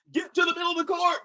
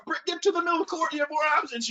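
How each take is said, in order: First: High, fast called instruction; coaching call. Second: High, rushed repeated instruction; coaching call. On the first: Coach calling out to a player during the game, high and fast. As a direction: call it across the court. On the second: Coach repeating his instruction across the court, rushed. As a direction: urge him again, quicker. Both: Retold or imitated.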